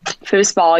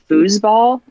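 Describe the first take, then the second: First: The middle consonant is a hissing S sound. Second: The middle consonant is a buzzing Z sound. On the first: "people hear me say it with that S sound" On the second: "more with a Z"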